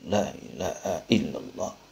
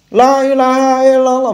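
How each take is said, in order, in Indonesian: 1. Diucapkan dengan lembut dengan suara dalam. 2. Diucapkan dengan keras dan lantang. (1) "tapi la ilaha illallah ... suaranya suara dalam" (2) "bukan gitu"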